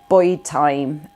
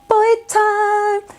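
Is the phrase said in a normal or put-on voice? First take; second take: normal; put-on. First: It is said in the speaker's ordinary voice. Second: It is said in an imitated announcer-style voice.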